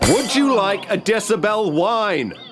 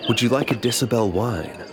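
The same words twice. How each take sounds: First: It is said loudly. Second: It is said quietly.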